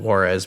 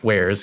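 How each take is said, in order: First: The word sounds like the name Juarez. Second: The word sounds like the ending of software. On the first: The speaker calls it wrong. "Some people pronounce it Juarez" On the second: The speaker calls it right. "it's wares because it comes from software"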